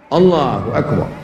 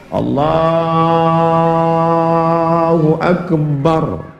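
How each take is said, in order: First: The phrase is said short and quick. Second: The phrase is drawn out long.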